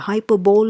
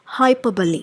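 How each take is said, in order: First: The word ends in a 'bowl' sound. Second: The word ends in a 'buh-lee' sound. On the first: The speaker calls it wrong. "Hyperbole is wrong" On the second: The speaker calls it right. "The right way to pronounce this is"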